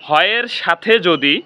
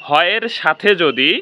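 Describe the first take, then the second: The two takes are said the same way.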